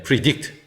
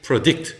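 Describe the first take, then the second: First: Predict as "pree-DICT"; "i" first vowel. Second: Predict as "pruh-DICT"; schwa first vowel. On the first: Teacher showing two allowed vowels, predict opening on "pree". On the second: Teacher showing two allowed vowels, predict opening on "pruh". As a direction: say predict with a weak "uh" in the first syllable. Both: Shown as a demonstration. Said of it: "어를 읽어도 되고 이를 읽어도".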